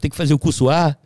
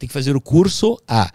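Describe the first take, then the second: First: It is said fast, the words running together. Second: It is said at a normal speed.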